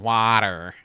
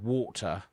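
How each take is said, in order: First: It is said in an American accent. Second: It is said in a British accent.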